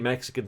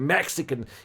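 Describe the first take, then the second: First: The word is said plainly, without extra force. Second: The word is punched with strong, forceful emphasis. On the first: The speaker calls it wrong. "He didn't just say Mexican tits" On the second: The speaker calls it right. "He really put that emphasis on"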